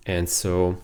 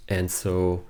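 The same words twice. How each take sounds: The two takes are said the same way.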